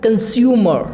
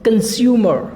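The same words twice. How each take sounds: No difference in how they are said.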